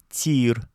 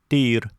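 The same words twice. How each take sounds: First: The first consonant is a soft t. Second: The first consonant is a hard t. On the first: It means shooting range. "с мягким «т» перед «и»" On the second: It means axe. "с твердым «т»"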